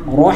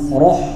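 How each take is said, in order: First: The vowel is said with an open mouth. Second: The vowel is said with a closed mouth. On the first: The speaker calls it right. "Roh dibuka. ... seperti itu" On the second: The speaker calls it wrong. "roh salah ya"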